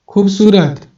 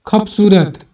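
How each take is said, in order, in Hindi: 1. बीच का व्यंजन घोष है। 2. बीच का व्यंजन अघोष है। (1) "जैसे बोल रहे हैं सु खूबसूरत" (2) "उसी चीज को अघोष बना रहे हैं"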